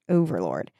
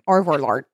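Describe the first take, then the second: First: The first part is said clearly as 'over'. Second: The first part is slurred as 'orvor'. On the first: The speaker calls it right. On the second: The speaker calls it wrong.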